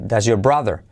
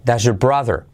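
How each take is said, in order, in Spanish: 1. Las palabras van unidas y la R de your se pierde. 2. Las palabras van unidas y la R de your se pierde.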